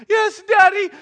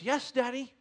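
First: Very high, loud mimicry of a child; jeering little-kid imitation; mocking child's answer. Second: Put-on slightly higher, agreeable child; lightly voiced small boy; obedient little boy. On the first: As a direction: throw his words back at him mockingly. Dad throws son's answer back. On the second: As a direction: answer dad like a compliant five-year-old. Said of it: "And he goes".

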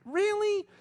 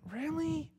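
First: Much higher and louder question; louder shocked disbelief. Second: Much higher, stunned question; surprised disbelief. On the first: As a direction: ask it louder, truly shaken. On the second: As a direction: ask it in shocked disbelief. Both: Retold or imitated. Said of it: "the kind that just kinda went".

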